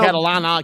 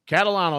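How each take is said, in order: First: The name ends in -ana. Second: The name ends in -ano. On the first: The speaker calls it wrong. "A lot of people call me" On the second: The speaker calls it right. "that's it"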